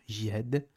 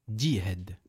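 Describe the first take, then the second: First: It starts with a soft j, no d sound. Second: It starts with a d before the j sound. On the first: The speaker calls it wrong. "il se peut que je le prononce de la manière suivante, jihad, sauf que c'est pas jihad" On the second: The speaker calls it right. "c'est di, djihad"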